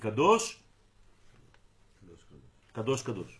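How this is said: A pause follows only the first word. The speaker calls it right. "כמו שאמרתי את זה עכשיו"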